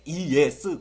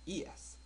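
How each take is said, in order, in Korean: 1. 이 단어는 크고 세게 말해요. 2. 이 단어는 작고 가볍게 말해요.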